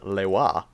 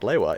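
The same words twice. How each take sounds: First: The stress is on the second syllable. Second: The stress is on the first syllable. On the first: The speaker calls it right. "it is Lewa. Emphasis on the second syllable" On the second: The speaker calls it wrong. "Lewa is not Lewa"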